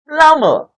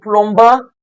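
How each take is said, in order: First: No B sound is heard in the middle. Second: A B sound is pronounced in the middle. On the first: The speaker calls it right. "The B in the spelling when pronouncing the word is silent" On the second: The speaker calls it wrong. "So instead of saying plumber"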